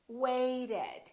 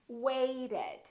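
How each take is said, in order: Both takes have the same delivery.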